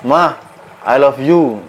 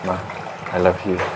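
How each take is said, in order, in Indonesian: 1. Frasa itu diteriakkan dengan keras. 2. Frasa itu diucapkan dengan pelan dan lembut. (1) "dengan berteriak" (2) "dengan pelan, dengan lembut"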